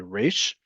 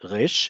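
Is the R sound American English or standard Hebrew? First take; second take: American English; standard Hebrew. First: The R is an American English R. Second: The R is a standard Hebrew R. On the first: "many people with an English, especially American English accent, will say" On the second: "there are two standardized versions of the letter Resh. You can either say it like this"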